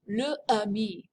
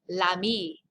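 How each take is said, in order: First: A glottal stop separates the article from the word. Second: The article runs smoothly into the word. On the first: The speaker calls it wrong. "you would do a glottal stop in your throat" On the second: The speaker calls it right. "Much better"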